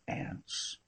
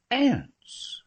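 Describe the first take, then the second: First: A breathy, whispered echo of the word "Aunts?"; unvoiced questioning "Aunts?"; puzzled whisper. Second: "Aunts." said much higher, louder, with a falling end; emphatic confirmation. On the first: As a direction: whisper "Aunts?" back in disbelief. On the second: Acted. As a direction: hit "Aunts." up high and bring it down firmly.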